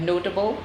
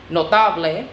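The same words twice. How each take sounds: First: Said in the usual way. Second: "notable" in Spanish, noh-TAH-bleh; Spanish pronunciation. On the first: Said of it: "often identical in Spanish and English". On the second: Shown as a demonstration. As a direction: say "notable" as Spanish, stressing the middle "ta". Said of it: "the words are stressed on the next".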